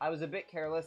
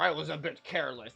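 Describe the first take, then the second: First: It is said in the speaker's normal voice. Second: It is said in a growly Bowser voice.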